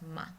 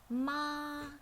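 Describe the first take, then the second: First: It is short, soft and light, with no pitch movement. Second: The pitch stays flat at a high level. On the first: "like a whisper, really quickly and gently" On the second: "flat and high"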